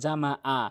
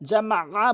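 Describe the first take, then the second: First: The middle consonant is a plain glottal stop. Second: The middle consonant is pressed from mid-throat. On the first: The speaker calls it wrong. "অধিকাংশ লোক হামজা এনে উচ্চারণ করে" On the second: The speaker calls it right. "বলতে হবে"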